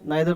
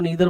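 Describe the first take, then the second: First: The first vowel sounds like 'eye'. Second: The first vowel sounds like 'ee'. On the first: "नाइदर को नीदर बोलते हैं" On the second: "दोनों accepted है"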